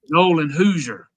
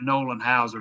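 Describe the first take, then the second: First: The surname's first vowel sounds like 'oo'. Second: The surname's first vowel sounds like 'ow'. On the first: This is the coach's pronunciation. The speaker calls it right. "Dabo was pronouncing it Nolan Hoosier today, so" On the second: This is the speaker's earlier pronunciation. The speaker calls it wrong. "I've been saying it Nolan Hauser"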